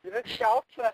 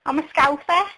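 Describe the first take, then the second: First: Mock Liverpool Scouse accent, pitched high; teasing imitation of a Scouser; playful high Scouse impression. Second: The real Scouse voice, unforced; Scouse accent. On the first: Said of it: "you've got this, like, thick Scouse accent". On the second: Real, not acted. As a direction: own natural Liverpool Scouse accent. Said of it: "thick Scouse accent".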